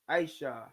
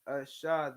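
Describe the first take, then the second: First: The word begins with an 'eye' vowel sound. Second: The word begins with an 'ah' vowel sound. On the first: This is how others say the word. The speaker calls it wrong. "Now they'll say it's Aisha, but we know that there is this is not an I" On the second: This is how the word was said originally. The speaker calls it right. "it was Ashah then, and it's Ashah now"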